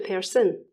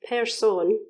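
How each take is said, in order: First: The second vowel is changed and reduced. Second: The second vowel is a clear o sound.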